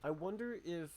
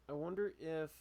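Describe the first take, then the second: No difference in how they are said.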